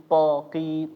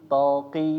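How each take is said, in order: No difference in how they are said.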